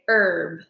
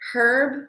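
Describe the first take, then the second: First: The word starts with a vowel, no h. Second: The word starts with an audible h sound. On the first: The speaker calls it right. "We normally say herb, like that" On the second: The speaker calls it wrong. "We don't say herb"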